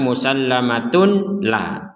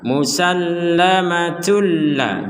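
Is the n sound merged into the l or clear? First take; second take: clear; merged. First: The n sound is said clearly before l. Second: The n sound merges into the following l. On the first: The speaker calls it wrong. "jangan sampai dimas, di dibaca musallamatun la, tun la itu artinya membaca dengan jelas" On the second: The speaker calls it right. "Dimasukkan ini domatain masukkan"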